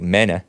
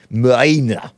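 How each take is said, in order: First: "Mena" said the Spanish way, with an open "e" like "meh-na". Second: Put-on "Mina" tried lightly in an Australian accent. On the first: Retold or imitated. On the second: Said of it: "pronounce it with an Australian accent".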